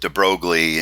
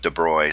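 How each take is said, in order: First: The name is said in an anglicized way. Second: The name is said in a French way. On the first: The speaker calls it wrong. "so I guess I'm in that bad habit" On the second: The speaker calls it right. "instead of de Broglie"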